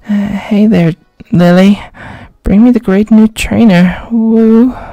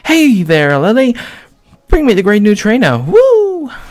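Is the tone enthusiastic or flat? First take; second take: flat; enthusiastic. First: It is said flat and unenthusiastic. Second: It is said with lively enthusiasm.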